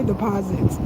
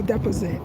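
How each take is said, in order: First: "deposits" said as dih-POZ-its; speaker's home pronunciation. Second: "deposit" said as DEP-uh-sit; local pronunciation. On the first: Newcomer shows how we say "deposits", home pronunciation dih-POZ-its. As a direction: stress the middle syllable of "deposits". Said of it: "so as we say deposits". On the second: Newcomer shows how locals say "deposit", local pronunciation DEP-uh-sit. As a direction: stress the first syllable of "deposit", short e. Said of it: "They say deposit". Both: Shown as a demonstration.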